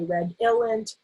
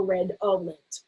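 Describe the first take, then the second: First: Redolent said as red-ill-end; "ill" variant. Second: Redolent said as red-ole-end; "ol" variant. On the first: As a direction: put a short i in the middle of redolent. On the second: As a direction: put a long o in the middle of redolent. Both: Shown as a demonstration. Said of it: "you might hear people say".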